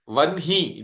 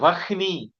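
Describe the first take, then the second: First: The n sound comes before the h sound. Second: The h sound comes before the n sound. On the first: The speaker calls it right. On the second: The speaker calls it wrong. "it is not Vahni"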